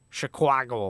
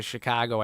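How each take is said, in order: First: Put-on movie-cop Chicago accent, "Chicago" as "shi-KWAH-go"; over-embellished Chicago accent. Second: Said in the usual way. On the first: Mimicking police in The Fugitive, over-embellished Chicago accent. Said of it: "you can hear the police when they talk".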